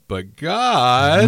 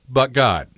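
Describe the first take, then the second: First: It is said in a whiny teenage voice. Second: It is said in a plain, sincere voice.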